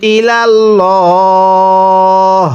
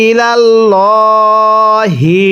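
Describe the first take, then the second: First: ইলাল্লাহ held long, dropping the final হি; stop on ইলাল্লাহ. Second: ইলাল্লাহি held very long with final হি; long chanted ইলাল্লাহি; plain continuation; connected reading. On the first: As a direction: pause at ইলাল্লাহ, no vowel. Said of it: "জেরকে বাদ দিয়ে পড়ব". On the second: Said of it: "এখন যদি ওয়াকফ করি". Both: Shown as a demonstration.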